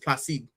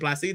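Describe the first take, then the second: First: The name is said with a French pronunciation. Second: The name is said with a Spanish pronunciation. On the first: "I think it's Placide because it's French" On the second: "I say Placide because that's Spanish"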